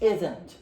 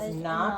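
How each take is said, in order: First: It is said as one contracted word. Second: It is said as two full words. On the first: "not becomes isn't" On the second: "is and then that would have been a not"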